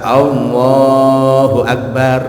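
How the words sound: It is said with an Indonesian accent. "kalau orang Indonesia Allahu Akbar Indonesia"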